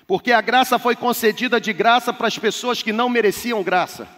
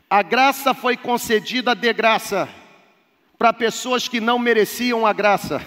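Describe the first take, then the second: First: It is said fast. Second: It is said slowly.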